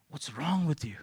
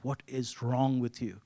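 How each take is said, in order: First: Whispered inner outburst. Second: Slow, exasperated inner scold. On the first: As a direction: hiss it silently to yourself, irritated. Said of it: "in me boiled was". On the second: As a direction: drag it out in disbelief. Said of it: "in my heart was like". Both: Retold or imitated.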